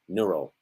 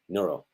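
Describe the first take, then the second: No difference in how they are said.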